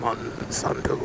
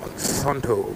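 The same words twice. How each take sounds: First: It is spoken in a whisper. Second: It is spoken in a normal voice.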